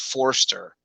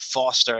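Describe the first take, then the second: First: The name is said with an r sound. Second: The name is said without an r sound. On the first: The speaker calls it right. "and it's Forster" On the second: The speaker calls it wrong. "They wrote it Foster"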